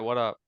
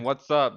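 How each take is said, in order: First: The 's' sound after 'what' is left out. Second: The 's' sound after 'what' is pronounced. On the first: "my words are a bit lazier" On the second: "instead of saying what's up"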